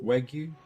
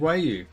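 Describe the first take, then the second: First: The word is said with a g sound. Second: The word is said without a g sound.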